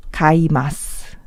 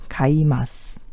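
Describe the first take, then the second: First: Said in the usual way. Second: Whisper. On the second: Shown as a demonstration. Teacher whispers the verb while writing it down. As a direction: breathe Kaimasu out under the voice. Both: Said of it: "Eu vou escrever tudo".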